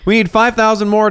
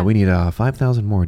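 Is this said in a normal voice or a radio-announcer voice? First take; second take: normal; radio-announcer. First: It is said in a normal conversational voice. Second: It is said in a calm public-radio announcer voice. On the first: The speaker calls it wrong. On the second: The speaker calls it right.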